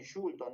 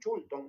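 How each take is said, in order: First: The word begins with a soft 'sh' sound. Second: The word begins with a sharp 'ch' sound. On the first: This is the form people in Lima do not use. "no dicen Shulton" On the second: This is how people in Lima say it. "dicen Chulton"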